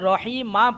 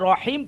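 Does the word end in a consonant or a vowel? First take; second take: vowel; consonant. First: The word ends with a final vowel 'a'. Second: The word ends on the consonant 'm'. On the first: The speaker calls it wrong. "রহিম মা পড়বো না" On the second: The speaker calls it right. "ওয়াকফের কারণে আমরা এখানে রহিম পড়বো"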